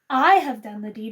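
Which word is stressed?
I. The stress is on "I".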